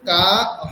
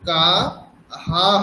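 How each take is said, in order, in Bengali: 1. শব্দটি শুধু একটি 'h' ধ্বনি দিয়ে শেষ হয়। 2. শব্দটি একটি 'h' ধ্বনি ও একটি স্বরধ্বনি দিয়ে শেষ হয়। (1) "তখন কিন্তু কা হ হবে না" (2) "কা হা হবে"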